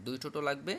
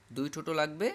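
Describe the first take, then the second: No difference in how they are said.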